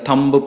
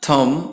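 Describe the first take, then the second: First: The final b sound is pronounced. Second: The final b sound is silent. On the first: The speaker calls it wrong. "These are wrong pronunciations" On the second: The speaker calls it right. "ये correct pronunciation है"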